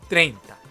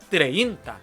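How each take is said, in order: First: The stress falls on the e vowel. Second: The stress falls on the i vowel. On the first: The speaker calls it right. "에의 강세가 들어가서 treinta 이렇게 해줘야 돼요" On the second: The speaker calls it wrong. "treinta 라고 하시면 안 되는 겁니다"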